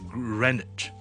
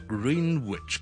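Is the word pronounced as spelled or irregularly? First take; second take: irregularly; as spelled. First: It is pronounced differently from what spelling suggests. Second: It is pronounced the way its spelling suggests. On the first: The speaker calls it right. "我哋叫Greenwich" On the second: The speaker calls it wrong. "就不是读Greenwich 的"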